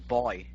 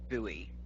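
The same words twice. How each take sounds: First: It is said with a British pronunciation. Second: It is said with an American pronunciation. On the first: "It's called a buoy over here" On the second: "you guys say buoy"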